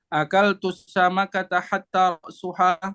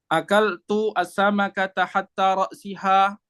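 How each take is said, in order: First: The last word has a u vowel after ra's. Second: The last word has an i vowel after ra's. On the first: Hatta starts a new clause. "hatta ibtidaiyah" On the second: Hatta acts as a preposition. "hatta sini huruf jar"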